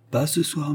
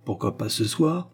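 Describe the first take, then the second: First: "Pas ce soir" starting higher, then falling; refusal. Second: "pas ce soir" rising to a question; retorted question. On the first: Acted. Pupil declines to walk professor back, "Pas ce soir" falling. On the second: A narrator's reading. Old professor challenges pupil's refusal, "pas ce soir" rising questioningly. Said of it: "riposta le vieux professeur".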